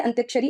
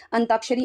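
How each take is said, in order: First: अंत्याक्षरी said with the ya sound, ant-yaa-ksha-ri; reading out the misspelt अंत्याक्षरी as ant-yaa-ksha-ri; wrong form read out. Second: अंताक्षरी said without the ya, an-taa-ksha-ri; correct form read out. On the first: Teacher showing exam students the wrong form: अंत्याक्षरी with ya. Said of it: "अंत्याक्षरी ऐसे नहीं लिखा जाता है". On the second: Teacher showing exam students the right form: अंताक्षरी without ya. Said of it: "अंताक्षरी ऐसे लिखा जाता है". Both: Shown as a demonstration.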